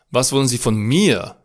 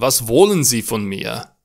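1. Accentul cade pe cuvântul mir. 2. Accentul cade pe cuvântul wollen. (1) "Cu accentul pe mir" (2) "Cu accentul pe wollen"

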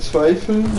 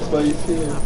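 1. Es wird als ein Wort gesprochen, betont am Anfang. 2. Es wird als zwei Wörter gesprochen, mit einer Pause. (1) "Also nicht zweifeln" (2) "sondern zwei fehlen"

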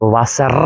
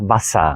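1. അവസാന ഭാഗം വ്യക്തമായ r ശബ്ദത്തോടെയാണ് പറയുന്നത്. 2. അവസാന ഭാഗം മൃദുവായ a സ്വരമായാണ് പറയുന്നത്. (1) "വസർ അല്ല"

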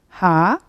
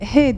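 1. Harf adı 'a' sesli harfiyle bitiyor. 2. Harf adı 'e' sesli harfiyle bitiyor. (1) "ama Almancası H" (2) "Türkçe alfabede H diye okunuyor"

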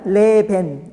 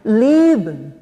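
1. 두 모음 다 또렷하게 소리 나요. 보통 한국어 음절처럼요. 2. 첫 음절에 강세가 있고, 두 번째 모음은 거의 묵음이에요. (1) "한국식으로 읽게 되면 레벤 이렇게 읽거든요" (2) "leben 이렇게 발음을 해야지"

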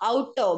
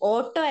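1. ആദ്യ സ്വരാക്ഷരം 'ow' ശബ്ദമാണ്. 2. ആദ്യ സ്വരാക്ഷരം സാധാരണ 'oh' ശബ്ദമാണ്. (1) "പ്രൊനൗൺസിയേഷൻ നമ്മൾ ശ്രദ്ധിക്കണം കേട്ടോ" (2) "ഓട്ടോ അല്ല കേട്ടോ"

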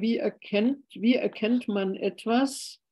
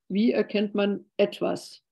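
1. Die Betonung liegt auf dem Wort erkennt. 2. Die Betonung liegt auf dem Wort etwas.

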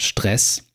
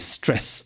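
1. Es wird mit einem deutsch klingenden sh am Anfang gesprochen. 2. Es wird mit einem englisch klingenden s am Anfang gesprochen.

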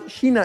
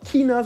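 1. Das Wort beginnt mit einem weichen ch-Laut. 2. Das Wort beginnt mit einem harten K-Laut. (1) "sondern China in meinen Augen" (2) "Man sagt auch nicht China"

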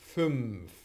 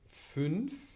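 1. Der Nasal nimmt die Lippen-Zahn-Stelle von f an. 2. Der Nasal bleibt bei der Zungenspitze vor f.

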